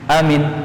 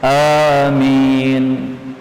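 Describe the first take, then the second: First: Both the first and second vowels are short. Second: Both the first and second vowels are long. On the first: It is a person's name. "Kalau dua-duanya pendek" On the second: It asks God to answer the prayer. "hamzahnya panjang, mimnya panjang"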